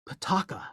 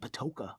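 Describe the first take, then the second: First: The middle vowel sounds like 'ah'. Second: The middle vowel sounds like 'oh'. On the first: The speaker calls it right. "you need to say Pataka" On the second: The speaker calls it wrong. "Don't say Patoka. I know there's that O in the middle"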